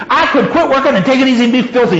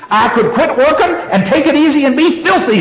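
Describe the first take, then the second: First: High, rushed, mildly growled threat. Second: High-pitched, mildly growled threat. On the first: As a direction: rattle off the defiant threat quickly. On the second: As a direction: read a defiant threat, pitched well up. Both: A narrator's reading. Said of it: "she growled".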